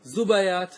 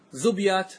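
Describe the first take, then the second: First: زبيات as zu-ba-yat; three syllables in زبيات, "ba" in the middle; fatha on middle letter. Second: زبيات as zub-yat; no vowel after the ب in زبيات; silent middle letter. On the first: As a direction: put an "a" after the ب in زبيات. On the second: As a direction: close the first syllable on ب in زبيات. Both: Shown as a demonstration. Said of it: "ويبقى لك اللغتان الآخرتان".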